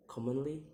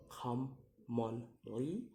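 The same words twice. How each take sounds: First: Said in the usual way. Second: "commonly" very slow in three beats, last rising; syllable by syllable. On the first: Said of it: "in ly". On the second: Shown as a demonstration. Teacher demonstrating syllables, "commonly" slow and split. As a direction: pause between each syllable of "commonly". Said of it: "three syllables to say".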